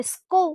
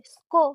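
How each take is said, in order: First: স্কো said as "skou", gliding from o to u; ou-diphthong pronunciation. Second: স্কো with a plain "o" ending; o-vowel pronunciation. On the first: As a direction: end স্কো on an "ou" glide. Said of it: "যদি ঔকার দিয়ে দিই". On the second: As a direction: say স্কো as "sko", one pure o vowel. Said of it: "আবার যদি ওকার দিয়ে দিই". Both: Shown as a demonstration.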